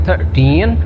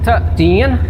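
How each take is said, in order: Both takes have the same delivery.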